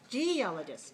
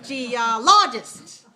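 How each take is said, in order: First: The stress is on the first syllable. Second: The stress is on the third syllable. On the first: "if it's first one, it'll be like this" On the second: "Third one is geologist"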